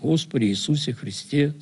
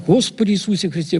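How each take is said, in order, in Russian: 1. Произносится медленно и спокойно. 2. Произносится быстро и взволнованно. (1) "когда человек в спокойном состоянии и начинает действительно спокойно читать" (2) "здесь уже так спокойно не пойдет. Тут надо: ... Слышишь скорость?"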